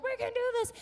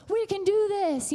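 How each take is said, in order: First: Very high mock team reply; team echo. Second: Higher coach's rallying cry; pumping them up. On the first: Players answer their coach in the huddle, high-pitched echo. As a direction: squeak back the rallying cry. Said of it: "and they're like". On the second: Retold or imitated. Coach in the huddle to his team, pumping up. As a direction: fire up the huddle. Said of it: "he's pumping them up".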